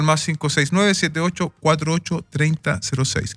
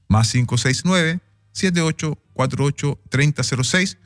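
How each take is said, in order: First: The number is read at normal speed. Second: The number is read more slowly.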